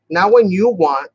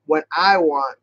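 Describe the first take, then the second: First: Slow, drawn-out "you"; "you" lifted in contrast; stress on YOU. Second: Firm emphasis on "I"; "I" stressed, then settle downward. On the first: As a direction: lean hard on "you", slowly. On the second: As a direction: lean on "I" in contrast. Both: Real, not acted. Mock scolding the glue, contrasting words.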